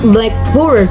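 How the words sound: The stress falls on the second part, board. "with praise stress"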